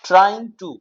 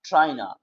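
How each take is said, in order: First: It is said as two full words. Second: It is blended into one short word. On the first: "ट्राइंग टू को short में" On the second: "short में हम कहते हैं ट्राइना"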